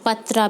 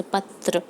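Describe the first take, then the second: First: पत्रा said with a long final aa, patraa; teacher says पत्रा with the long aa ending, the wrong form; wrong form patra. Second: पत्र said with no final vowel, ending on the r; teacher gives the right form पत्र, clipped at the r; correct form patr. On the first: पत्रा spoken with long aa, as the wrong form for class three pupils. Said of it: "पत्रा नहीं". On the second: पत्र with no final vowel, the correct form for class three pupils. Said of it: "पत्रा नहीं, पत्र". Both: Shown as a demonstration.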